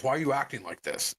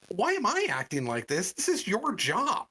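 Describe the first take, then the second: First: Quick, mildly annoyed challenge; retold accusation. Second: Higher-pitched, affronted retort; indignant comeback. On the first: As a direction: toss the blame at the customer. Worker throws accusation at customer. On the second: Retold or imitated. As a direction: throw the question back, rising into exasperation. Customer throws the question back.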